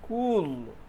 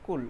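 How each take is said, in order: First: The vowel is a long oo sound. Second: The vowel is a short sound. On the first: The speaker calls it right. "Long oo sound should be produced" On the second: The speaker calls it wrong. "but not cool"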